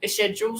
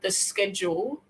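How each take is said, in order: First: Self-correct to "schedule" with sh, "shed-jool"; shedule pronunciation. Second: "schedule" said with a hard sk, as "sked-jool"; skedule pronunciation. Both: Shown as a demonstration.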